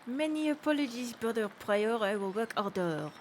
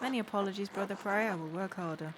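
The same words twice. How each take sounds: First: It is said in a put-on French accent. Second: It is said in the speaker's plain accent.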